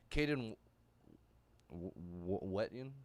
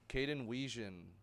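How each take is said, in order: First: The surname is said with a 't' sound. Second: The surname is said with a soft 'g' sound. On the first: The speaker calls it wrong. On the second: The speaker calls it right.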